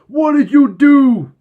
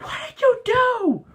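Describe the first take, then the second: First: The voice is deeper and more masculine. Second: The voice is lighter and less masculine. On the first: "More like" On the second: "Except he sounds a lot more masculine than that"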